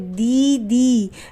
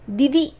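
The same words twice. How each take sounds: First: The vowels are drawn out long. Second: The vowels are clipped short. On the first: The speaker calls it right. "थोड़ा खींच कर बोल रहे हैं" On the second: The speaker calls it wrong. "दीदी ऐसे नहीं बोल रहे"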